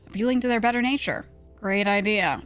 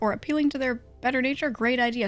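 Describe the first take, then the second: First: It is said sarcastically, with mocking irony. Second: It is said sincerely, without sarcasm.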